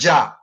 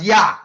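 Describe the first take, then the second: First: The word begins with a J sound. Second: The word begins with a Y sound. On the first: The speaker calls it wrong. "We we all use the word ja. But people must remember that there was no J in the alphabet" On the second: The speaker calls it right. "supposed to pronounce as Yah"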